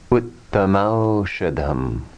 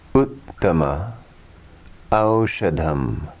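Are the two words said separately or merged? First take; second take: merged; separate. First: The two words are merged into one. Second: The two words are said separately.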